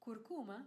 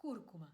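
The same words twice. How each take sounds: First: Curcuma in Spanish, pitched a little up then falling; variant pronunciation. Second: Curcuma in Spanish with stress up front, "KUR-ku-ma"; variant pronunciation. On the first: Host shows one way Spanish speakers say curcuma, variant pronunciation. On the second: Host shows the other way people say curcuma, variant pronunciation. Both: Shown as a demonstration. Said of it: "I have heard people say".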